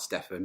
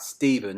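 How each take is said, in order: First: The name is said a non-British way. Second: The name is said the British way. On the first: The speaker calls it wrong. "not Stefan" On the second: The speaker calls it right. "in the U K we would pronounce that Stephen"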